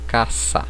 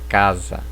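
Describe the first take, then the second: First: The middle consonant is a voiceless s sound. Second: The middle consonant is a voiced z sound. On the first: "esse S ele não terá som de Z" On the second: "Como na palavra casa"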